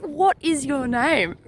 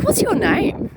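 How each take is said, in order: First: Slow, deliberate, each word weighed; slow firm demand to a stubborn ghost; slow stern question. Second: Asking a ghost's name, pitched higher; higher, pointed question to the ghost; higher demanding question. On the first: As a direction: spell it out slowly like a warning. Asking again, slower, sterner. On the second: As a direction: demand it sharply, voice up high. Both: Retold or imitated.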